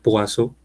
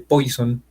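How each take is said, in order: First: The name is said the French way, Poisson. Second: The name sounds like the English word poison. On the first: The speaker calls it right. "realmente se pronuncia Poisson" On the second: The speaker calls it wrong. "hay gente que realmente está mal dicho"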